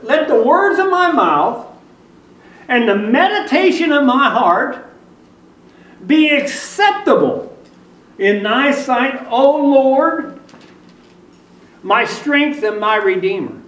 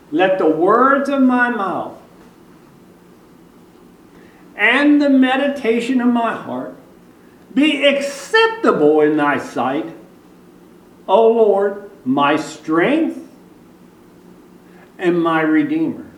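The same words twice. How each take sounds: First: The verse is read at normal speed. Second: The verse is read slowly and deliberately.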